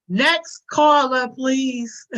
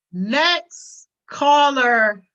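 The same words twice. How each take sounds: First: Drawn-out, louder "Next caller" like a call-in host; mock radio host. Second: Very slow, louder "next caller", each word dragged; milk "next caller" like a host cutting someone off; mock radio host. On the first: Streamer playing a radio host, dismissing chat, drawn out. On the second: Streamer hanging up on chat as a mock host, dragged out. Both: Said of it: "I'm hanging up this line".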